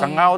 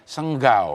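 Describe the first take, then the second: First: The ng is said without a following g. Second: The ng is followed by a hard g.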